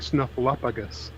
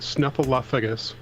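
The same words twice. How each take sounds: First: The name is said with one F sound. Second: The name is said with two F sounds. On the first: This is how other people say it. "other people saying" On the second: This is how the speaker has always said it. "I've always said Snuffleupagus with two F's, two F sounds in there"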